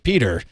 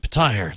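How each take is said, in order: First: The name sounds like the common name Peter. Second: The name sounds like 'Pa-tire', ending in 'tire'. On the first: Another audiobook reader said it this way. The speaker calls it wrong. "He's like" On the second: The earlier audiobook reader said it this way. The speaker calls it right.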